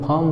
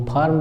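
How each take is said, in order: First: फार्म as "phaam", no r; फार्म with an open vowel straight into m; silent r. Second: फार्म as "phaarm", r sounded; फार्म said the Indian way, with r; r pronounced. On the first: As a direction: drop the r from फार्म. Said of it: "वो लोग फार्म बोलते हैं". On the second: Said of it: "हम वो फार्म बोलते हैं". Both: Shown as a demonstration.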